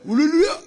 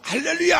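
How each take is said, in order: First: The word is pronounced slurred and indistinct. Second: The word is pronounced clearly and distinctly.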